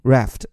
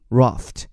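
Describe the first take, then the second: First: The word is said in an American accent. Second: The word is said in a British accent. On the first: "如果是美音raft" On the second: "如果是英音raft"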